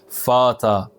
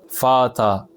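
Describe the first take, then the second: Both takes have the same delivery.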